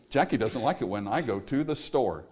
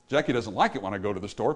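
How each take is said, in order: First: "Jackie doesn't like it when I go to the store" heavy and even; sad rhythm. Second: Fast, bouncy "Jackie doesn't like it when I go to the store"; happy rhythm. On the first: Preacher shows how rhythm makes the line sound sad. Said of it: "we make it sound sad". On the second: Preacher shows same line in a happy, fast bounce. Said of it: "but it sounds happy". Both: Shown as a demonstration.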